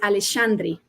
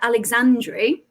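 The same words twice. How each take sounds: First: The x is said as a sh sound. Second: The x is said as a ks sound. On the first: The speaker calls it right. "the X is actually a sh sound. So how we should be pronouncing it" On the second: The speaker calls it wrong. "is how I've always said it, because as we would with the X"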